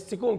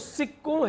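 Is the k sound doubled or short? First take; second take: short; doubled. First: The k sound is short and single. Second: The k sound is held and doubled. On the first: The speaker calls it wrong. "टकों के साथ जो है सिकों कर दिया" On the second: The speaker calls it right. "अब वो सिक्कों है"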